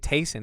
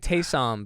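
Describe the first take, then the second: First: The final sound is weak, like an N. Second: The final M sound is clear and stressed. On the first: The speaker calls it wrong. "it kind of sounds like you're saying Tyson" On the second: The speaker calls it right. "then you're really getting that M"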